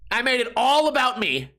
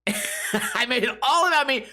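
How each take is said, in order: First: Said in the usual way. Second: Higher, laughing through the words; amused self-mocking laugh. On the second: Real, not acted. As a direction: giggle it out at yourself. Laughing at himself, repeated.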